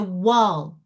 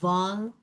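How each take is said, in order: First: The word begins with a W sound. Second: The word begins with a V sound. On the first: The speaker calls it right. "So they're pronounced right" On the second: The speaker calls it wrong. "W, what sounds, they don't have it in their language"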